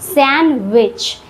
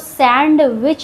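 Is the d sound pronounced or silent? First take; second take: silent; pronounced. First: The d sound is silent. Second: The d sound is clearly pronounced. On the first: The speaker calls it right. "डी यहाँ silent होता है" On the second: The speaker calls it wrong. "इसको सैंडविच नहीं पढ़ते हैं"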